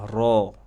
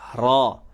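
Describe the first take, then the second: First: The vowel after the r is plain and ordinary. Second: The vowel after the r is very open. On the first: The speaker calls it right. "Biasa aja" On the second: The speaker calls it wrong. "ro-nya itu terlalu terbuka"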